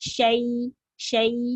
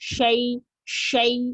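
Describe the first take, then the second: First: The lips stay unrounded and the sound is light. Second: The lips are rounded and the sound is pushed hard. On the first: The speaker calls it right. "இவ்வளவுதான் வரணும்" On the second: The speaker calls it wrong. "வாய குவிச்சு ... இப்படி சொல்லிடுவாங்க"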